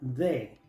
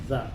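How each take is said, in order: First: It sounds like Spanish 'de' with a d. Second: It ends in a short, weak 'uh' vowel. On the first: The speaker calls it wrong. "Muchos pronuncian esta palabra de" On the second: The speaker calls it right. "Cuando viene antes de una palabra que empieza con consonante, se pronuncia the"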